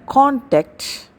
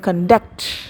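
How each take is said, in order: First: The stress is on the first syllable. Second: The stress is on the second syllable. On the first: It is used as a noun. "The first one" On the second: It is used as a verb. "second one"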